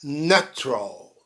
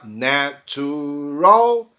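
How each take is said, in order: First: "natural" reduced to na-tral, softer; two-syllable natural. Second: Slow "natural" with every syllable full, na-tu-ral; three-syllable natural. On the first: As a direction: drop the middle vowel in "natural". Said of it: "para apenas duas sílabas". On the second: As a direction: stretch "natural" into three beats. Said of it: "Em vez de falar". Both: Shown as a demonstration.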